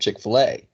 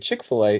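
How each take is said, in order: First: The stress is on the last syllable, A. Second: The stress is on the first syllable, chick. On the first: The speaker calls it right. "you're supposed to put the emphasis on the A" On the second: The speaker calls it wrong. "I put the emphasis on the chick"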